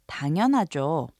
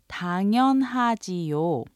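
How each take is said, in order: First: The ending is contracted into one quick syllable. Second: The ending is said in full as two syllables. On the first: "it's often shortened or said quickly to sound like" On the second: "You could say 당연하지요"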